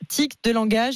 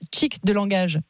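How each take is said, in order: First: The first word starts with a plain t sound. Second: The first word starts with an affricated ch-like sound. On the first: "au lieu de dire tic de langage" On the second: "ils disent chic de langage"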